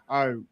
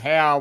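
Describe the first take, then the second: First: The vowel rhymes with go. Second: The vowel rhymes with cow. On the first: The speaker calls it right. "He wants his name pronounced Ho" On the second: The speaker calls it wrong. "we pronounce it How, but it's actually pronounced"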